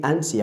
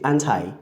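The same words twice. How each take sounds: First: ANTI said as "AN-tee"; British pronunciation. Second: ANTI said as "AN-tie"; American pronunciation. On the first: Teacher showing how Britons say anti, British pronunciation. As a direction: end ANTI on an EE sound. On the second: Teacher showing how Americans say anti, American pronunciation. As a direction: end ANTI on an "eye" sound. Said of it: "Americans will say". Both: Shown as a demonstration.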